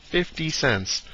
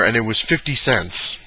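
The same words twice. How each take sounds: First: Quiet, higher echo of the price; hushed, incredulous repeat; stunned disbelief. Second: Said in the usual way. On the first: Real, not acted. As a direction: repeat it softly, not believing it.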